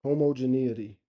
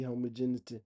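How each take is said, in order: First: Homogeneity as hoh-moh-juh-NEE-uh-tee, every syllable; copying the phone's homogeneity; careful pronunciation. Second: Homogeneity said as hoh-MON-tee, middle syllables dropped; stumbling over homogeneity; mangled pronunciation. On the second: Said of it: "I'm supposed to say homogeneous". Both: Shown as a demonstration.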